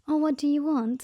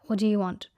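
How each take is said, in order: First: It sounds friendly and polite. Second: It sounds rude and hostile.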